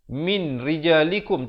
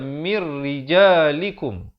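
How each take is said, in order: First: The n is pronounced clearly before the r. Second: The n merges fully into the following r. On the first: The speaker calls it wrong. "asalnya min" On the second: The speaker calls it right. "tapi dia kena baca mir rijalikum"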